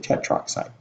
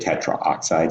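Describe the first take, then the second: First: No vowel is sounded before 'oxide'. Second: An 'a' vowel is sounded before 'oxide'. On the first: The speaker calls it right. "say tetroxide" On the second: The speaker calls it wrong. "Don't say tetraoxide"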